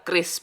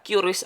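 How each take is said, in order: First: It is said as one syllable, like Kris. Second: It is said differently, not like Kris. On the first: The speaker calls it right. "Penyebutan Qris yang benar adalah Kris" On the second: The speaker calls it wrong. "bukan Qris atau sejenisnya"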